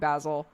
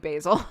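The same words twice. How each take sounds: First: It is said in the British way. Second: It is said in the American way. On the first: This is how people in England say it. "everybody around me in England has been saying Basil, so I've started saying Basil" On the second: This is how people in America say it. "in America it would be basil"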